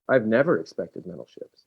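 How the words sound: The word never is strongly emphasized.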